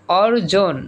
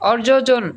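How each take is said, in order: First: অর্জন said as or-jon, J sounded once; single J. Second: অর্জজন said as or-jo-jon; অর্জজন with an extra jo in the middle; wrongly doubled J. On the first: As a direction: clear অর্জন in two syllables. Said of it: "দুইবার উচ্চারণ করা হবে না". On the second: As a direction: repeat the J syllable in অর্জজন. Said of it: "এরকম বলি আমরা?". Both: Shown as a demonstration.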